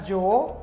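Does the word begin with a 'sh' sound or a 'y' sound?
y. The word begins with a 'y' sound. This is how other Spanish speakers say it. "ele não fala yo"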